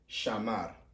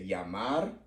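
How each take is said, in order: First: It starts with an Argentine sh sound. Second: It starts with a y-like sound.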